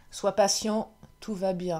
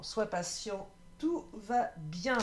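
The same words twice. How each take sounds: First: Said in the usual way. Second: Softer and slower, soothing the viewer; slow, tender reassurance; gentle reassurance. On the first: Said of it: "je termine avec un vœu de nos anges". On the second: Shown as a demonstration. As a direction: say it like a calm promise that all is well. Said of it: "euh, ouais, vraiment".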